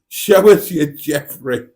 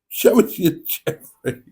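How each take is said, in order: First: It is read in a plain, normal voice. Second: It is said in a put-on character voice.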